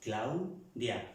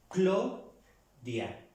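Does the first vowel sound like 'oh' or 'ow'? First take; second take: ow; oh. First: The first vowel is a gliding 'ow' sound. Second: The first vowel is a plain 'oh' sound. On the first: This is not how French speakers say it. "no lo pronuncia en francés Claudia" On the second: This is how French speakers say it. "ellos pronuncian Clodia"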